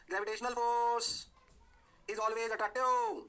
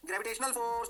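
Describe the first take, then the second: First: Gravitational force is always attractive, each word drawn out very slowly; teacher dictating the key law at a crawl; slow stressed rule. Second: Said in the usual way. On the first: Shown as a demonstration. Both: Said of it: "कौन सा force?".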